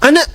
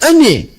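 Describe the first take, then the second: First: The word ends with an open 'a' vowel. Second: The word ends with an 'e' vowel.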